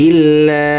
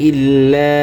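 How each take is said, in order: No difference in how they are said.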